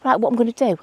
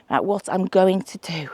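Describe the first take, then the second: First: Said in the usual way. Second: "going to" said slowly and fully, not "gonna"; careful going to. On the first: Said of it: "I keep saying gonna". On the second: Shown as a demonstration. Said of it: "gonna means I'm going to".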